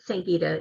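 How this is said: The name is said with American pronunciation.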